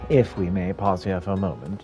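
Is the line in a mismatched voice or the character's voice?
mismatched voice. It is read in a mismatched put-on voice. The speaker calls it wrong.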